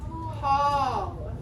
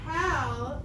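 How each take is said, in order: First: The vowel is an aw sound. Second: The vowel is a short a sound. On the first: The speaker calls it right. "it's Hall" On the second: The speaker calls it wrong. "So it's not Hal"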